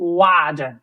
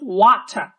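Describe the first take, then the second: First: The middle consonant sounds like a soft d. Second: The middle consonant is a clear t sound. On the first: "আমেরিকানরা বলো" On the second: "ব্রিটিশরা বলো"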